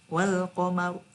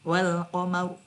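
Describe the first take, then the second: The two takes are said the same way.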